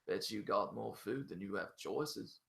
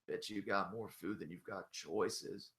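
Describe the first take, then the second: First: It is said in a British-sounding accent. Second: It is said in a forced Southern American accent. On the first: "which sounds kind of British" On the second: "and he just goes"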